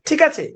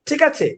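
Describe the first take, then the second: No difference in how they are said.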